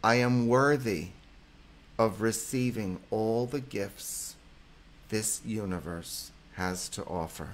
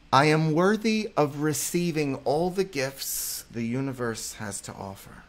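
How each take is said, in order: First: Affirmation for repeating. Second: Higher, louder, proclaiming the affirmation; affirmation read. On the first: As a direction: pause so listeners can say it back. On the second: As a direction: state it as a firm truth to the audience. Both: Shown as a demonstration. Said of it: "Repeat with me, guys".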